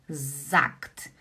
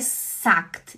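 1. A palavra começa com um som de Z sonoro. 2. A palavra começa com um som de S surdo. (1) "ele faz som de Z. Z" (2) "Por que não é sagt?"

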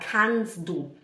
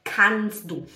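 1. O som do t em kannst é omitido. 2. O som do t em kannst é omitido.

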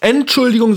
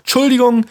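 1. Das ganze Wort 'Entschuldigung' wird mit der ersten Silbe gesprochen. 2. Das Wort ist verkürzt, ohne die erste Silbe 'Ent'. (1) "Also nicht Entschuldigung" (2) "sondern einfach Entschuldigung"

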